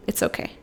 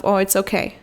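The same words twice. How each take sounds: First: Much softer, almost breathless it's okay; hushed reassurance. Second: Gentle reassurance to herself; calm yourself down after a slip; soothing self-talk. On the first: To her inner child, hushed and soothing. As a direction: drop to a hush to soothe your inner child. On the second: She tells herself it's okay, reassuring. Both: Retold or imitated. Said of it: "just told myself".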